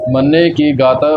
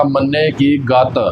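First: ਗਤ said lightly with a single t; soft pronunciation. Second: ਗਤ said heavily with a doubled t; hard, doubled consonant. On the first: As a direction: keep ਗਤ loose, no doubled t. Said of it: "ਪੋਲਾ ਉਚਾਰਨ ਕਰਨਾ ਹੈ". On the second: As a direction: tighten ਗਤ onto a hard double t. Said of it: "ਅੱਧਕ ਦੇ ਨਾਲ ਉਚਾਰਨ ਨਹੀਂ ਕਰਨਾ". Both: Shown as a demonstration.

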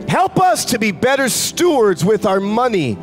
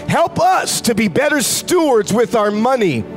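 The two takes are said the same way.

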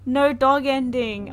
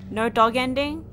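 First: Slow, loud, falling lament; mock lament. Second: Rising, louder in disbelief; dismayed disbelief. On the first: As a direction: drag it out like a heartbroken wail. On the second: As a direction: asks it like it can't be true. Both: Real, not acted. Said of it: "I'm gonna cry".

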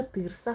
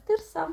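First: Тирса said the proper way, stress on the first syllable; correct stress on тирса. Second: Тирса with the local stress on the last syllable, said higher; local mispronunciation. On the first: Explaining to viewers the correct stress in тирса. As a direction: correct stress in тирса, not the local one. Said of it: "вимовляю правильно тирса". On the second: Mocking the town's way of saying тирса, higher. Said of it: "в нашому місті всі поголовно кажуть". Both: Shown as a demonstration.

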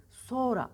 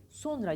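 First: Sonra as "soora", no N; spoken form. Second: Sonra with the N sounded; audible "n" in Sonra; written form. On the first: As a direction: drop the n in sonra, lengthen o. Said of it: "sonra okuruz". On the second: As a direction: say Sonra fully as spelt. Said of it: "Sonra yazarız". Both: Shown as a demonstration.

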